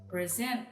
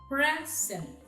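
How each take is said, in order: First: The stress is on the last syllable. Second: The stress is on the first syllable. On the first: It is a verb. "while in the verb, the stress is in the last syllable" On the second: It is a noun. "In the first column with nouns, the first syllables are written in bold letters, meaning the stress is in the first syllable"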